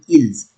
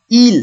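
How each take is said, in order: First: The word ends with an added z sound. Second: The word ends in an l, no z sound. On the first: A verb starting with a vowel follows. "if I have a verb start with vowel, I will say ils" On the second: No vowel follows the word. "exactly like this one"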